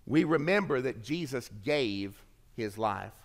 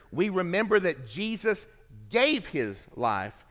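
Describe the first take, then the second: First: Said in the usual way. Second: Weighty emphasis on gave, the rest of the line as usual; stress on gave. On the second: Shown as a demonstration. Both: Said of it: "The word gave bears the emphasis here".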